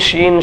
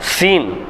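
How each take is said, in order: First: The word begins with an sh sound. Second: The word begins with an s sound. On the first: The speaker calls it wrong. "சீனை சொல்லும் போது ஷீன் ஷீன் ஷீன்னே சொல்லுவோம். அது ஷீன் இல்லை" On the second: The speaker calls it right.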